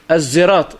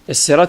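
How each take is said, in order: First: The word is said with a Z sound. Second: The word is said with an S sound. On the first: This is some tribes' variant reading. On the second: This is the usual reading.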